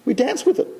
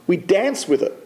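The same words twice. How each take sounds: First: "We dance with it." said higher, rising on "with"; emphatic repeat. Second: Said in the usual way. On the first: Shown as a demonstration. Rabbi repeating to the archbishop, emphatic and rising. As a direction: lift "with" to drive the point home.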